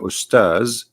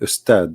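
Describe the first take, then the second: First: The word ends with a z sound. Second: The word ends with a d sound. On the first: The speaker calls it right. "if this is the word coming from Arabic, which means Ustaz" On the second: The speaker calls it wrong. "you don't say Ustad. That's that's a very uh, false uh, way to say it"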